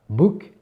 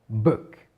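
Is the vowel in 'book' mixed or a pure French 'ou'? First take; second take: pure ou; mixed. First: The vowel is a pure French 'ou' sound. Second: The vowel sounds between 'ou' and 'e'. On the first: The speaker calls it wrong. "C'est pas book" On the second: The speaker calls it right. "un mélange entre le OU et le E"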